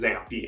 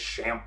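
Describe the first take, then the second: First: The word does not begin with a sh sound. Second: The word begins with a sh sound. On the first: The speaker believes this is the name. "but I think it's XAMPP" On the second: Other people say it this way. "Some people might say it's SHAMP"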